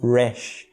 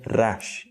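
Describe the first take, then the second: First: The R is a soft English-style R. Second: The R is a strong guttural R. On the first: "nos Estados Unidos, em que a pronúncia em inglês é feita do R um pouco diferente" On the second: "com um R forte proveniente da língua no céu da boca"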